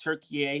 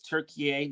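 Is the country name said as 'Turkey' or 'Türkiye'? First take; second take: Türkiye; Türkiye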